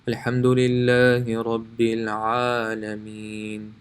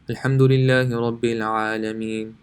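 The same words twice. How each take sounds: First: It is recited slowly with equal long stretches. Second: It is recited quickly with equal short stretches. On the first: "If you're reading slower" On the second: "if you're reading fast"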